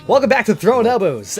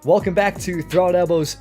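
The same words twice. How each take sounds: First: It is said loudly in an excited DJ voice. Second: It is said flatly, with a falling end.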